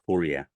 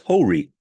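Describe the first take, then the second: First: The name is said in its Arabic form. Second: The name is said in its Persian form. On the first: "the Arabic original is Horia" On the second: "The Persian pronunciation is Hori"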